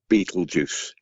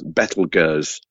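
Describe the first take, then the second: First: The name sounds like the film title 'Beetlejuice'. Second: The name does not sound like 'Beetlejuice'. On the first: The speaker calls it wrong. "it's not Betelgeuse" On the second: The speaker calls it right. "It's pronounced Betelgeuse, because it's Arabic and it's nothing to do with Hollywood"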